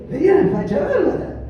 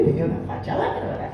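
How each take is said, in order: First: High, louder and laughing through it; laughing loudly at himself; open laugh. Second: Held-back giggle over the words. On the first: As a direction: let the laugh burst out. Repeats it, laughing openly. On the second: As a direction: chuckle it under your breath. Retelling his shabby look, laughing. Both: Real, not acted.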